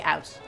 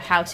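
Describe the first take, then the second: First: The word starts without an h sound. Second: The word starts with an h sound. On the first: "dropping the H's" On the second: "instead of"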